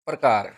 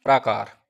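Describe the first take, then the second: First: प्रकार with short first a, stressed; प्रकार, pra kept short and loud; short a shown. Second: प्राकार with a long aa in praa; long aa shown. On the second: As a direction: stretch the first vowel of प्राकार. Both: Shown as a demonstration. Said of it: "प्रकार और प्रकार".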